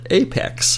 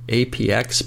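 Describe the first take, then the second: First: The name is said as one two-syllable word. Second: The name is spelled out as three letters. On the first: "the folks at Atari call it Apex" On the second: "I've always pronounced it APX"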